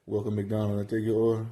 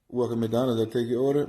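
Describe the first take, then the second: First: Lazy mumbled cashier voice; mumbled drive-thru greeting. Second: Same lazy mumble, pushed a bit louder; mumbled drive-thru greeting, louder. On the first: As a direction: swallow the words like a bored cashier. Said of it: "Like, what you say?". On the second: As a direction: still mumbling though trying harder. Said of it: "speak up a bit". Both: Retold or imitated.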